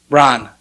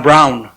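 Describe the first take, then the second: First: Braun with an open ah vowel; "Braun" said "brahn". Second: Braun rhyming with "town"; "Braun" with an ow vowel; Braun as "brown". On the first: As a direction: say Braun to rhyme with John, as a quiet correction. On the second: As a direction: say Braun like the English word brown. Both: Shown as a demonstration.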